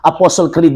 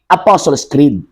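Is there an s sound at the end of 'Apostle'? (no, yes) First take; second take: no; yes. First: The first word ends without an s sound. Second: The first word ends with an s sound. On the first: The speaker calls it wrong. "Apostle, oh, Apostle Creed daw" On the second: The speaker calls it right. "Pero ang libro, mao ni"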